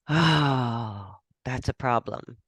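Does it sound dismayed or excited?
dismayed. It sounds dismayed and negative.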